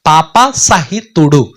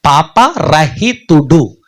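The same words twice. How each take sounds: First: పాప సహితుడు said very slowly, stressing పాప; పాప సహితుడు drawn out as a contrast; slow clear word. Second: పాపరహితుడు spelled out very slowly, syllable by syllable; పాపరహితుడు drawn out carefully; slow clear word. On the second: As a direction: say పాపరహితుడు slowly, stressing రహిత. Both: Shown as a demonstration. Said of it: "రెండు పదాలు".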